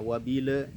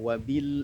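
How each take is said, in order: First: The word ends with a vowel after L. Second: The word ends on a still L sound. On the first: The speaker calls it wrong. "jangan sampai terbaca wabila" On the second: The speaker calls it right. "wabil a dalam sukun"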